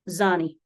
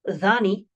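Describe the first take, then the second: First: The word begins with a buzzing z sound. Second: The word begins with a soft th sound. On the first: "pronounce the D H with a Z sound" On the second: "Instead of dhani"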